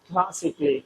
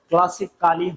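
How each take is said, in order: First: The middle syllable is dropped: klas-ik-li. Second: The middle syllable is kept: klas-ik-al-li. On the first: The speaker calls it right. "উচ্চারণ ক্লাসিকলি" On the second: The speaker calls it wrong. "ক্লাসিক্যালি হওয়ার হবে না"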